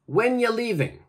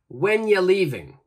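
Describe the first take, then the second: First: 'Are you' is joined into one short sound. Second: The same.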